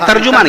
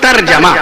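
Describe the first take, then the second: First: A 'u' vowel is heard between 'j' and 'm'. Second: No 'u' vowel is heard between 'j' and 'm'. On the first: The speaker calls it wrong. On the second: The speaker calls it right.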